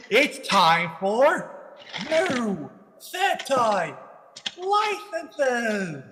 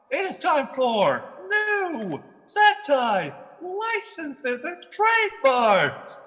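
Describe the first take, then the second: First: Slow drawn-out announcer voice; game show announcer. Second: High, slow announcer build-up; game show announcer. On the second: Repeats announcement, bigger. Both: Pretend.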